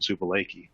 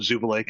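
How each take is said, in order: First: The name ends with an added 'ee' sound. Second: The name ends with a plain 'lake' sound. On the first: "I still hear people call it Zuba Lakey" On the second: "I'll call it Zuba Lake"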